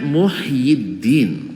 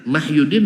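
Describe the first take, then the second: First: The name begins with a 'u' vowel. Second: The name begins with an 'a' vowel. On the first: The speaker calls it right. "Tapi sebenarnya Muhyiddin" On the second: The speaker calls it wrong. "Mahyuddin tidak ada"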